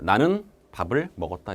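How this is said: It is said with pauses between chunks. Listeners perceive speech as separate segments. "이렇게 끊어서 인식을 합니다"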